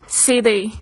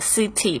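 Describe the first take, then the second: First: The t sounds soft, like a d. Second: The t is clear and crisp. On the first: This is the usual everyday form. "通常你会听到的都是city" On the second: It is said slowly and carefully. "除非念很慢他们才会念成这个city 把这个t 发得很清楚"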